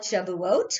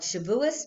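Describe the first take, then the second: First: The word ends with a t sound. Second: The word ends with an s sound. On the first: "which is the Hebrew pronunciation" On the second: "it's the Yiddish pronunciation"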